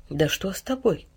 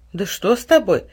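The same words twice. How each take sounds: First: Softer, slower, anxious question; worried. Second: Mildly annoyed, throwing up her hands; a touch of exasperation; vexed. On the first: Mother drawing back from her son, quietly worried. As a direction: ask with growing worry. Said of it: "удивлённо и немного встревоженно". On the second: Mother vexed at her odd son, mildly annoyed. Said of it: "с досадой всплеснула руками мать". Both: A narrator's reading.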